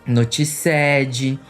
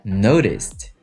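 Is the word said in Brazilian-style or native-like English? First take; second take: Brazilian-style; native-like. First: It is said with a Brazilian-style English pronunciation. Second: It is said with a native-like English pronunciation. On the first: The speaker calls it wrong. "O inglês do outro é assim. ... vocês começam a falar tudo errado" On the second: The speaker calls it right. "Repeat, noticed"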